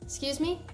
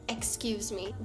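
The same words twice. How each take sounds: First: The first syllable of excuse is dropped. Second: The full word excuse is pronounced. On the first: "This turns into just excuse me. You don't hear the excuse" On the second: "you can just say, excuse me"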